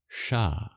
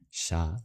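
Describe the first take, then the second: First: The sh is made with the tongue curled back. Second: The sh sounds like a plain English sh. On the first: "retroflex variants ... you curl your tongue back" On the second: "just your regular palatal sibilant like we have in English"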